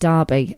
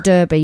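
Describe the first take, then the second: First: It is said with a British accent. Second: It is said with an American accent. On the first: The speaker calls it right. "If you ever go to England, ... you're going to" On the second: The speaker calls it wrong. "you don't go to"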